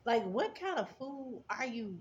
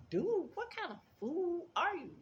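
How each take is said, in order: First: Flat repeat. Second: Much higher, mocking disbelief; incredulous outburst. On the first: Real, not acted. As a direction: say it again dry and deliberate. Repeating her reaction to him. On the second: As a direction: shriek it like you can't believe him. Reacting to trash chute story.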